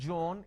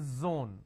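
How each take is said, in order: First: The word begins with a j sound. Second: The word begins with a z sound. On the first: The speaker calls it wrong. "It's not John" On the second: The speaker calls it right. "it is zone"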